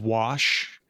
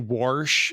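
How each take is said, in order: First: No r sound comes before the sh. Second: An r sound comes before the sh. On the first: "instead of wash" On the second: "some people in the Midwest, they say warsh"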